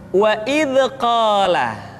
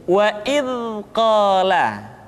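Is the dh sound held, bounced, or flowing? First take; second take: bounced; flowing. First: The dh sound bounces with a rebound. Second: The dh sound flows out smoothly and softly. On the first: The speaker calls it wrong. "kesalahan kedua, suara seringkali dipantulkan" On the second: The speaker calls it right. "Yang tepat adalah suara dialirkan dengan lembut"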